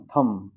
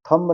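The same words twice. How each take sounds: First: थंब ending on m, no b; silent b. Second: थंब with the final b voiced; b sounded. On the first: Teacher correcting learners, silent b in थंब. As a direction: hum to a stop on the m of थंब. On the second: Teacher showing the wrong reading, b sounded in थंब. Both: Shown as a demonstration. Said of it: "थंब नहीं".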